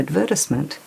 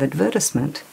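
First: It is said with an Australian stress pattern. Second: It is said with an Australian stress pattern.

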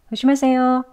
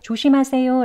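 First: The first consonant is soft and barely pronounced. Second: The first consonant is pronounced clearly and strongly. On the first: "지읒 소리를 강하게 내지 않습니다" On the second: "이렇게 명확하게 발음을 하기도 하지만요"

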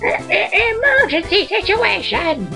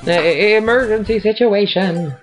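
First: It is said in a Toad voice. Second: It is said in his normal voice.

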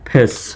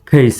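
First: The vowel is a plain short e sound. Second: The vowel glides from e to i. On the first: The speaker calls it wrong. "এটি ভুল উচ্চারণ" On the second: The speaker calls it right. "এভাবে উচ্চারণ করা সঠিক"

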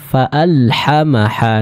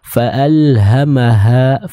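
First: The h sound is harsh and tight. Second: The h sound is soft and airy. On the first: The speaker calls it wrong. "ini kurang tepat" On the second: The speaker calls it right. "keluar dari tenggorokan bagian bawah"

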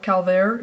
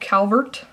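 First: The name is pronounced the French way. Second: The name is pronounced the plain English way.

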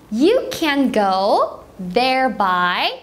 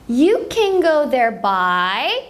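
First: It is said at a slower pace. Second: It is said at a faster pace.

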